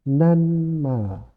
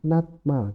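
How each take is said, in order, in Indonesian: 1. Bunyi n ada sebelum m. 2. Bunyi t ada sebelum m. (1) "Cara membacanya menjadi nanmal" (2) "Cara cara menulisnya adalah natmal"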